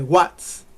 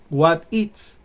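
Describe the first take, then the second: First: It is contracted into one syllable. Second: It is said as two full words. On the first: "y se contrae" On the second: "What comes from what is"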